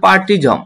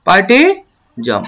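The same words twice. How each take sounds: First: Said in the usual way. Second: পার্টিজম stretched slowly, each syllable drawn out; slow model pronunciation. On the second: Shown as a demonstration. (ধীরে টেনে উচ্চারণ) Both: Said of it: "আমি যদি এখন পুরোটা উচ্চারণ করি".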